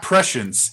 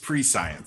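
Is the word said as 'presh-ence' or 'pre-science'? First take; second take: presh-ence; pre-science. First: It is said as one word, 'presh-ence'. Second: It is said as 'pre' plus 'science'. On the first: The speaker calls it right. "it's not prescience" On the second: The speaker calls it wrong. "it's pre-science"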